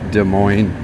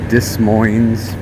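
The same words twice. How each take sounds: First: The final s sound is silent. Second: The final s sound is pronounced. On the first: This is the accepted way to say it. The speaker calls it right. "but it's Des Moines. ... I guess S is silent" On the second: This is how some other people say it. The speaker calls it wrong. "Other people say"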